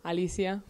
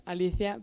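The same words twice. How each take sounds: First: "Alicia" with an s or sh sound, no th; American pronunciation. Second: "Alicia" with a th for the c, Spanish-style; Spanish pronunciation. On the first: Exchange student showing what locals call them, "Alicia" without the Spanish th. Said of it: "here the people call me". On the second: Exchange student from Spain giving own name, "Alicia" with Spanish th. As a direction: say "Alicia" as ah-lee-THEE-ah. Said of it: "I pronounce Alicia". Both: Shown as a demonstration.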